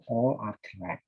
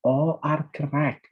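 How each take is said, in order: First: Said in the usual way. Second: "All" stretched, higher and louder, slowly; slow emphatic "All are correct", raised and loud; stress on ALL. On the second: Shown as a demonstration.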